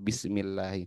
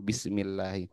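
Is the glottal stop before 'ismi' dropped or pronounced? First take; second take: dropped; dropped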